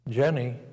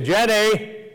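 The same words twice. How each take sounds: First: The name is said softly. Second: The name is shouted loudly.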